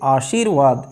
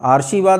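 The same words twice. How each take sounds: First: The r sound comes just before 'vaad'. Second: The r sound comes just before 'shi'. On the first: The speaker calls it right. "अपने से बाद वाले वर्ण के ऊपर अर्थात वा के ऊपर पहुंच जाएगा" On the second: The speaker calls it wrong. "आशीर्वाद नहीं बनेगा, ये पहले नहीं पहुंचता है"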